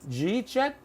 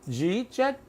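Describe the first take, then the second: No difference in how they are said.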